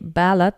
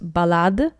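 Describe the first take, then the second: First: The word is said the English way. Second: The word is said the French way. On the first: It refers to the English poem. "ballad is an English term" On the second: It refers to the musical piece. "ballade is more a French term"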